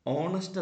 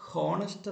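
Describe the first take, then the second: First: "ഓണസ്റ്റ്" opening on the vowel o; "ഓണസ്റ്റ്" with a silent h. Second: "ഹോണസ്റ്റ്" with the h sounded; "ഹോണസ്റ്റ്" said with a clear h; wrong aspirated h. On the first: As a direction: drop the h: "ഓണസ്റ്റ്". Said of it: "ഓണസ്റ്റ് എന്നാണ്". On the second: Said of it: "എന്നല്ല പറയേണ്ടത്". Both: Shown as a demonstration.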